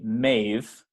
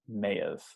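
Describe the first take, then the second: First: The two words merge into one syllable. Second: A small sound separates the two syllables. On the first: The speaker calls it wrong. "Be careful that you don't say mave" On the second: The speaker calls it right. "you hear this little sound in between"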